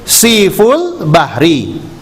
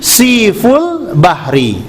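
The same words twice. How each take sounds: Both takes have the same delivery.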